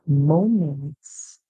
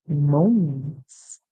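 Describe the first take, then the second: Both takes have the same delivery.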